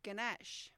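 It is said with an Australian pronunciation. "we say ganache"

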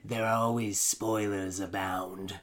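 It is said in a dark Sith-lord voice.

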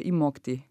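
It is said in a soft Bavarian accent.

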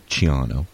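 The name is said with an Italian pronunciation. This is how the name is said in Italy.

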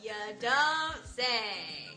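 It sounds sarcastic and mocking. The news was obvious all along. "也可以用来讽刺别人"

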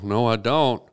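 It is said in a Southern American accent. The speaker calls it wrong.

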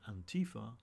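It is said with an American accent.

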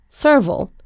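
It is said in an American pronunciation.

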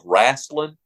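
The word is said in a Southern accent. The speaker calls it right. "you got to say this properly in the South"

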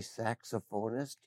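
It is said the American way. "we would say saxophonist"

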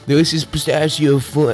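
It is said in a put-on character voice.

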